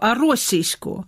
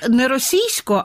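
First: The stress falls on the first syllable. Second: The stress falls on a later syllable. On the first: The speaker calls it right. "на першому складі наголос" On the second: The speaker calls it wrong. "хочу вас зразу поправити, не російсько"

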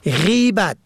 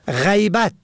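First: The first vowel is an 'i' sound. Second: The first vowel is an open 'a' sound. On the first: Talking about someone behind their back. "به کسر اول" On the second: Absence, not being present. "به فتح اول"

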